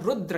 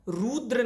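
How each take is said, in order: First: The vowel after the r is short. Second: The vowel after the r is long. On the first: The speaker calls it right. "रुद्र है" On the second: The speaker calls it wrong. "रुद्र नहीं है"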